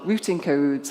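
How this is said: It is said in a British accent.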